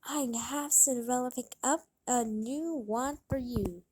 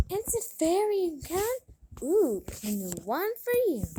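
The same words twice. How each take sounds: First: Said in the usual way. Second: High gasp then an excited, quick echo; spoiled daughter thrilled by a new flute; delighted gasp. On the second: Acted. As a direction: gasp with glee at the news.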